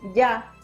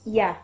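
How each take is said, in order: First: The y sound is strong, like in llave. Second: The y sound is soft and gliding. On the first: The speaker calls it wrong. "el sonido no es ya como, no sé, como por ejemplo en llave" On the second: The speaker calls it right. "la primera semivocal es ya"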